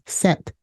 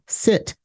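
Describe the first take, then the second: First: The vowel is a short e sound. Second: The vowel is a short i sound.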